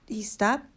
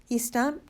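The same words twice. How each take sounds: The two takes are said the same way.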